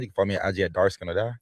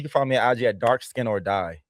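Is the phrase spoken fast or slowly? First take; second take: fast; slowly. First: The phrase is spoken very fast. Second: The phrase is spoken more slowly.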